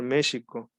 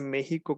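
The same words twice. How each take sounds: First: The middle consonant is an sh sound. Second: The middle consonant is a harsh h-like sound. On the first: The speaker calls it right. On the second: The speaker calls it wrong.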